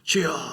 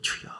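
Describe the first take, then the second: First: It is cried out forcefully, like a battle cry. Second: It is said softly and gently, without force.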